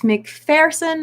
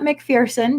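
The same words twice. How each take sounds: First: The middle syllable sounds like 'fur'. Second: The middle syllable sounds like 'fear'. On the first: The speaker calls it right. "it's McPherson" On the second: The speaker calls it wrong. "not McPherson, because there is no fear in McPherson"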